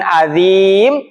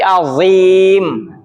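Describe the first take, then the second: First: The z sound is light and thin. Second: The z sound is heavy and thick. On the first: The speaker calls it wrong. "bukan azim" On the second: The speaker calls it right. "yang harus tebal, ... tapi azim"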